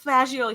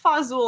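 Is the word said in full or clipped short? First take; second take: full; clipped. First: The word is said in full, fa-jo-lee. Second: The word is clipped short, fa-zool. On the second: ""It's fazool,""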